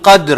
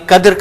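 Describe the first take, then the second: First: It starts with a deep throaty q sound. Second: It starts with a plain k sound. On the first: It means the Night of Decree. The speaker calls it right. "काफ को आप अंडरलाइन करेंगे" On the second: It points to a word for filth. The speaker calls it wrong. "अगर आपने कद्र कहा, जैसे कि हम आमतौर पे कहते हैं"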